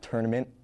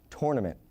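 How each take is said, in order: First: The first syllable sounds like 'ter'. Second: The first syllable sounds like 'tour'. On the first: The speaker calls it wrong. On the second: The speaker calls it right.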